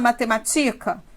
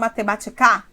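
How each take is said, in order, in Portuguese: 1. A tônica está na penúltima sílaba. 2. A tônica está na última sílaba. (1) "Não. Então, a tonicidade não é aqui" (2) "Não. Então, não é aqui"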